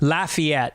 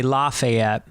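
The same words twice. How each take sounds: First: Lafayette said LAF-ee-ette with a short flat first vowel; local Lafayette. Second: Lafayette said lah-fay-ETTE with a broad ah; New Orleans Lafayette. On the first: Narrator telling listeners how locals in Lafayette say the town's name, LAF-ee-ette. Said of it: "You have to say Lafayette when you're there". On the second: Narrator showing how New Orleans people say the town's name, lah-fay-ette. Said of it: "If you're in New Orleans, you say". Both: Shown as a demonstration.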